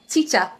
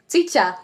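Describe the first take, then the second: The two takes are said the same way.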